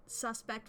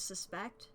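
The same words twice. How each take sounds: First: "Suspect" with the first syllable stressed; noun stress. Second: "suspect" with the second syllable stressed; verb stress. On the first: Streamer comparing noun and verb, "Suspect" stressed SUS-pect. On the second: Streamer comparing noun and verb, "suspect" stressed sus-PECT. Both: Shown as a demonstration. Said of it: "it just depends on the emphasis".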